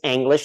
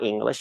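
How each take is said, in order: First: The word is pronounced with a German sound. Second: The word is pronounced with an English sound. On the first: The speaker calls it right. "I want to get the pronunciation right" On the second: The speaker calls it wrong. "not English"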